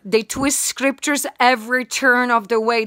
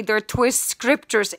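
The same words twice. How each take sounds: First: Said in the usual way. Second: "twist" stressed, slow and falling; slow repeated stress. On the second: Shown as a demonstration. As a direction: lean hard and slowly on "twist".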